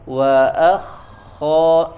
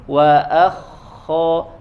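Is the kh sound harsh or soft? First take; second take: soft; soft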